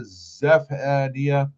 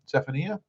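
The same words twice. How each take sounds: First: Zephaniah drawn out slowly; sounding out. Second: Zephaniah softly, rising as a question; unsure pronunciation. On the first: Streamer trying a viewer's name, sounding out Zephaniah. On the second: Streamer unsure of a viewer's name, Zephaniah as a soft question. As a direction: check Zephaniah quickly and quietly, tune going up. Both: Shown as a demonstration. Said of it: "it's pronounced".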